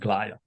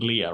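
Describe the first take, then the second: First: The word is said with an English pronunciation. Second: The word is said with a Greek pronunciation. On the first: "you can pronounce it with the English pronunciation" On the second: "I prefer the Greek pronunciation"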